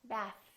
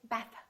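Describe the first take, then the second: First: The tongue stays out for a clear th. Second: The tongue pulls back, clipping the final th. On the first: The speaker calls it right. "Keep it out" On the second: The speaker calls it wrong. "Don't say bath"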